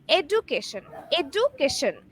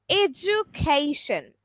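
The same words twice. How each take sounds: First: EDUCATION with a hard d, "ed-oo-KAY-shun"; common mispronunciation. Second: EDUCATION slowly as "ed-JU-kay-shun", with a j sound; correct pronunciation. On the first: Teacher showing learners how people usually say it, mispronounced. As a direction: say EDUCATION with "doo" in place of the j sound. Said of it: "rather the correct pronunciation is". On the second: Teacher correcting the common version for learners, correct pronunciation. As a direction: say EDUCATION carefully, d turning into a clear j. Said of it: "the correct pronunciation is". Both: Shown as a demonstration.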